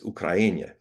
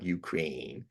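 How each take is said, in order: First: It uses a native-style pronunciation. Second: It uses the usual English pronunciation. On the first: The speaker calls it right. "as the natives pronounce them" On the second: The speaker calls it wrong. "not Ukraine"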